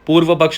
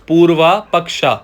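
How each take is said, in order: First: Both words end without a long final vowel. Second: Both words end with a long 'aa' vowel. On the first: The speaker calls it right. "पूर्व पक्ष नहीं" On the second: The speaker calls it wrong. "हम उसे पढ़ेंगे पूर्वा पक्षा"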